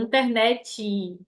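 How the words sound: It is said with a Brazilian pronunciation.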